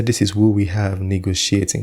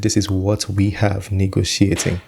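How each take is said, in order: First: "who" stressed as the misquote. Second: "what" stressed as the real quote. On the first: YouTuber showing the line he didn't say, stress on "who". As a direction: punch the word "who". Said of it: "He didn't say". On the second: YouTuber quoting what he really said, stress on "what". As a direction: lean on the word "what". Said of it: "He said". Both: Shown as a demonstration.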